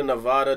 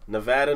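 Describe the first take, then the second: First: "Nevada" with the middle vowel as in "father"; broad-a pronunciation. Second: "Nevada" with the middle vowel as in "cat"; short-a pronunciation. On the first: Host compares two pronunciations, "Nevada" with broad ah. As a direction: say "Nevada" as neh-VAH-duh. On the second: Host compares two pronunciations, "Nevada" with short a. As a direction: say "Nevada" as neh-VAD-uh. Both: Shown as a demonstration. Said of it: "I always pronounce it Nevada".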